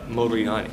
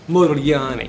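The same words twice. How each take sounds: First: The name is said with an American pronunciation. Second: The name is said with an Italian pronunciation. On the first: The speaker calls it wrong. "And I said" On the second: The speaker calls it right.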